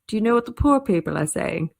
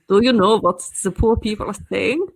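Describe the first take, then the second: First: It is said in the speaker's ordinary accent. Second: It is said in a posh German accent.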